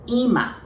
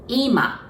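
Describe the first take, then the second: First: The pitch is high first, then falls. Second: The same.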